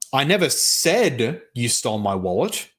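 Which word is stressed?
said. The word 'said' carries the main stress. The speaker denies saying it but not that it happened. "With the first one, you're denying that you said something"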